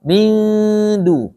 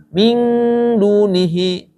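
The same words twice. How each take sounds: First: MIN DU with a long hum at the front of the mouth; front-placed long nasal in "Min du"; nasal held forward. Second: "min dunihi" with the hum slipping back to an NG; back-of-mouth nasal in "min"; nasal too far back. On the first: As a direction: stretch the n of "Min", tongue forward for "du". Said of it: "Ini ke depan". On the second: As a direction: wrongly say MIN as "ming" before "dunihi". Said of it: "Kalau min ke belakang itu angnya". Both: Shown as a demonstration.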